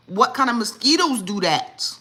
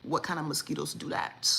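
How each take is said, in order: First: Louder and higher, stress on mosquitoes; loud incredulous repeat of the question; outraged exclaim. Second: Said in the usual way. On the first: Shown as a demonstration. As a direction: blurt it out in disbelief. Repeats question, now exclaimed loudly.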